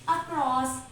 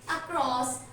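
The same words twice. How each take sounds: First: It is said in a simple, literal reading. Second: It is said in the standard pronunciation. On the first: The speaker calls it wrong. "We can read it in easy style" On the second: The speaker calls it right. "So its correct pronunciation is"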